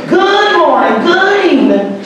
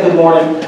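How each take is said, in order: First: Good morning sung high and bright; grandma's sing-song greeting. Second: Said in the usual way. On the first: Retold or imitated. Grandson imitating grandma greeting every caller. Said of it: "she would say". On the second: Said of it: "So she'd say".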